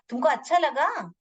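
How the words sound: It is asked with lively questioning expression. The speaker calls it right. "एक भाव के साथ पूछ रही हूँ"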